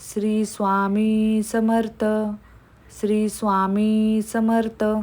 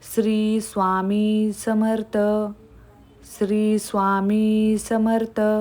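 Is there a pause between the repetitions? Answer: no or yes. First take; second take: yes; yes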